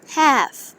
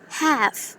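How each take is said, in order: First: It is said in an American accent. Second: It is said in an American accent.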